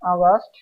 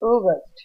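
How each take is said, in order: First: It is said with an everyday Bengali-style pronunciation. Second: It is said with an English phonetic pronunciation. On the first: The speaker calls it wrong. "Normally উচ্চারণগুলো করে থাকি" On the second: The speaker calls it right. "Phonetics নিয়ম বা rules অনুযায়ী"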